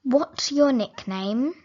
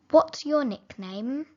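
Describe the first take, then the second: No difference in how they are said.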